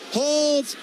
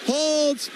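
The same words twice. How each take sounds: The two takes are said the same way.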